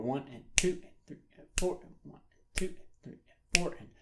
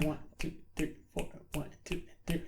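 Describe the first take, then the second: First: Soft count leaning on "two" and "four"; accented count. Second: Soft, even count under the strumming; steady counting. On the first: Guitar teacher showing the accents, count stressing "two" and "four". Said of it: "have to accent beats two and four". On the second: Guitar teacher showing continuous eighth notes, soft steady count. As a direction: count softly and evenly in time. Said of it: "continuous eighth notes going on the whole time". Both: Shown as a demonstration.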